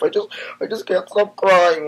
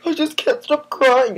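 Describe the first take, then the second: First: High, loud mock sob; theatrical pretend weeping; hammed-up crying. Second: High, loud mock sob, slow; over-the-top pretend weeping; hammed-up crying. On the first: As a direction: blubber it out like a fake meltdown. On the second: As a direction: wail it like a fake meltdown. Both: Fake emotional breakdown.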